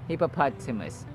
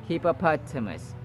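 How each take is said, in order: The two takes are said the same way.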